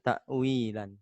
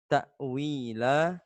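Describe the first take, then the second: First: The word ends with an n sound. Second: The word ends on a vowel without n. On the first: The speaker calls it wrong. "bukan ta'wilan" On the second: The speaker calls it right. "cara membacanya adalah ta'wila"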